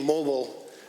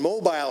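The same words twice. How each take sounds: First: The word is said the American way. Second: The word is said the Canadian way. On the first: The speaker calls it wrong. "the pronunciation mobile is American" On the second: The speaker calls it right. "what we own and what we live in in Canada"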